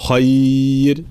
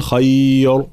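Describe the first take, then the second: First: "خير" drawn out, ending in a thin r; light ra. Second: "خير" ending in a thick r; heavy ra mistake. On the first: Teacher correcting the ending, "خير" with light ra. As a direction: stretch "خير" and lighten the final ra. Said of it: "ترقيق الراء هنا". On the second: Teacher showing what to avoid, "خير" with heavy ra. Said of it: "فلا نرجع إلى حركة الفتح". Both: Shown as a demonstration.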